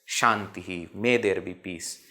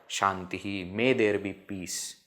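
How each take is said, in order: No difference in how they are said.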